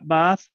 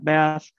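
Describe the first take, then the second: First: It has a low central vowel. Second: It has a low front vowel like trap. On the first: "in Jamaica... They're low central" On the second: "Midwestern, middle of the road American English"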